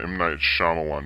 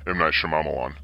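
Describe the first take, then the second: First: The name is pronounced in the standard way. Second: The name is pronounced in a deliberately distorted way. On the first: The speaker calls it right. "So I said it right" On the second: The speaker calls it wrong. "the way I like to say it. That's totally disrespectful"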